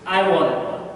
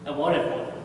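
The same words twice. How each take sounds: First: Said in the usual way. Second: Quiet echo. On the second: Acted. Echo of the line, dropped away.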